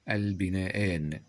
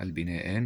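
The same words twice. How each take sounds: First: Slow, stretched البناءان; sounded out. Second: Said in the usual way. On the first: Shown as a demonstration. Teacher introducing the next word, البناءان slowly drawn out. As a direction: lengthen each syllable of البناءان.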